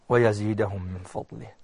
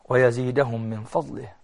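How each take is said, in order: Both takes have the same delivery.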